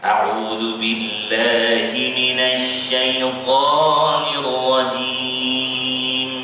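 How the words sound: The word syaithan is pressed and said high.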